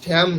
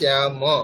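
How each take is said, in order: First: The word ends in a bare consonant. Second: The word ends in a short a vowel. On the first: The speaker calls it wrong. "শ্যাম নয়" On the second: The speaker calls it right. "শব্দটি হচ্ছে শ্যাম। অকার আছে।"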